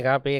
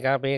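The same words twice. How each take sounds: No difference in how they are said.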